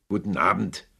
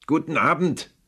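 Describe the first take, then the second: First: Said in the usual way. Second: "Guten Abend" called out higher and louder, stressing Abend; loud dismissal. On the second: Acted. Scrooge finally shouts his nephew out the door. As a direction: bark "Guten Abend" to end the talk. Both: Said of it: "rief Scrooge".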